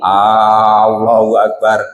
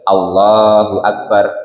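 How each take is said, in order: First: The first vowel of Allahu is drawn out long. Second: The first vowel of Allahu is kept short. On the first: It turns into a question about whether God is greatest. The speaker calls it wrong. "Kalau A-nya dipanjangin" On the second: It is a statement that God is greatest. The speaker calls it right. "Makanya A-nya pendek, baik"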